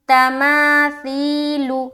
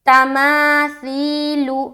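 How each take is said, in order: Both takes have the same delivery.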